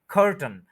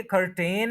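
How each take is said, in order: First: कर्टन as "KHUR-tn", falling; correct pronunciation. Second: कर्टेन with a full "tain" ending; wrong pronunciation. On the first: Teacher giving the everyday word, कर्टन with no "ain". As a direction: stress "khur", join t and n in कर्टन. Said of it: "उनको हम क्या कहते हैं?". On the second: Teacher showing what isn't said, कर्टेन ending in "tain". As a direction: sound out the long vowel in कर्टेन. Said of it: "यानी कि कर्टेन नहीं कहते". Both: Shown as a demonstration.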